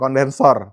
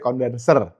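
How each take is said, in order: First: The last syllable has an 'o' vowel. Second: The last syllable has an 'e' vowel. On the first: The speaker calls it wrong. "bukan kondensor" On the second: The speaker calls it right. "tapi kondenser"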